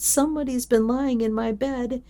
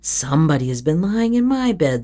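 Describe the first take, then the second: First: The voice is small, high and shrill. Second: The voice is medium in pitch and size. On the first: "the little small wee voice" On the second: "in her middle voice"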